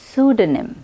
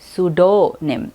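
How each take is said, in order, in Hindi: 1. बीच के अक्षर में हल्का 'duh' स्वर है। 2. बीच के अक्षर में पूरा 'doe' स्वर है। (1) "करेक्ट प्रोनाउंसिएशन है" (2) "कुछ लोग ड को डो कहते हैं, वो भी गलत है"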